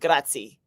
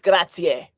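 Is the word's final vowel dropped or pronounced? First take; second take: dropped; pronounced. First: The final vowel of the word is dropped. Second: The final vowel of the word is pronounced. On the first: The speaker calls it wrong. "it's not grazie" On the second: The speaker calls it right. "We pronounce every single letter"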